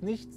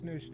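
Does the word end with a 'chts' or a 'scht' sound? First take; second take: chts; scht. First: The word ends with a soft 'ch' and 'ts'. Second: The word ends with a 'sch' sound and 't'. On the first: The speaker calls it right. "Das heißt nichts" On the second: The speaker calls it wrong. "nicht nischt"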